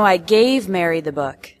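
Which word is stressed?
gave. The word "gave" carries the strongest stress. It was given, not lent.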